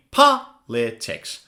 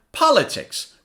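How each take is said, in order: First: "Politics" slowly split, POL stressed; low, slow "Politics" with pauses between syllables. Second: "Politics" in one go, POL high and stressed; quick "Politics", falling from a high first syllable; faster, joined up. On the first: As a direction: model "Politics" in three separate beats for repeating. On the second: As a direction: say "Politics" as a whole word, punching POL. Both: Shown as a demonstration. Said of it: "Now say it faster".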